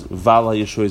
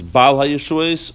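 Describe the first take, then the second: First: The first word begins with a V sound. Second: The first word begins with a B sound. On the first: The speaker calls it wrong. "It said both of them with a vase" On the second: The speaker calls it right. "At first you do Bal HaYeshuas"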